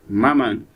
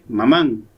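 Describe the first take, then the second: First: The stress is on the first syllable. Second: The stress is on the last syllable. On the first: The speaker calls it right. "sino maman" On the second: The speaker calls it wrong. "No dije mamán"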